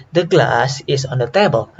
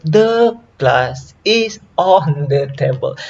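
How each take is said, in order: First: GLASS and TABLE stressed, is on the kept light; stress on content words. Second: THE glass IS ON the table, function words drawn out and raised; stress on every word. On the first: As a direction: punch glass and table, slip over is on the. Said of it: "glass and table are content words". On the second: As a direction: lean heavily on the, is and on. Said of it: "We don't say". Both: Shown as a demonstration.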